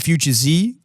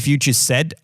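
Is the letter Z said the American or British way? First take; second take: American; British. First: The letter Z is said the American way. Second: The letter Z is said the British way. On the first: "you say Future Z" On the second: "I just say it the British way"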